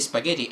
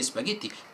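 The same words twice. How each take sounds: First: It is said with an English pronunciation. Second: It is said with an Italian pronunciation. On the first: "if I speak English and I say spaghetti, I would say" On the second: "in Italian say"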